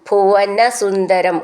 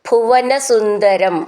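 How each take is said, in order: The two takes are said the same way.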